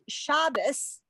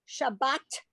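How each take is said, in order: First: The word ends with an s sound. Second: The word ends with a t sound. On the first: This is the Yiddish-influenced way of saying it. "because they're saying the word as if it had this at the end" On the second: This is the way the speaker's community says it. "but we say"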